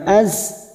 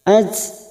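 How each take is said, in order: Both takes have the same delivery.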